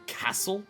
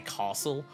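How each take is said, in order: First: The first vowel is short, like in cass. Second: The first vowel is long, like in car. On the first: "the Victorian accent very much will say castle, like it's C A S S" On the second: "It's very much is like C A R"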